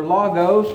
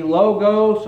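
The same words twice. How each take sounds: First: "logos" with an open first vowel, LAH-gohs; short-o pronunciation. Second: "logos" with a long o, LOH-gohs; long-o pronunciation. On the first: Preacher offers congregation the alternative, "logos" as LAH-gohs. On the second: Preacher offers congregation one pronunciation, "logos" as LOH-gohs. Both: Shown as a demonstration. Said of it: "depending on how you wanna pronounce that".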